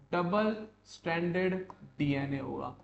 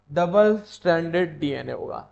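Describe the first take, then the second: First: Said in the usual way. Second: डबल stranded punched out loud; emphatic repeat. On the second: Shown as a demonstration. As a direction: drive home डबल stranded with a loud, firm push.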